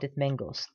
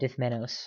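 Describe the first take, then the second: First: The name is said with a g sound. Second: The name is said without a g sound. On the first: The speaker calls it wrong. "I like mispronouncing him with the G" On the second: The speaker calls it right. "the real pronunciation"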